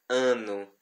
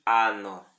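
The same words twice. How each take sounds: First: "ano" with a nasal Portuguese ã; "ano" with nasalised first vowel; wrong nasal ano. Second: "ano" with an open oral a, slow; careful Latin "ano", no nasal; correct open ano. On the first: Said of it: "não se pronuncia ano". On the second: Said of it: "e sim ano". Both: Shown as a demonstration.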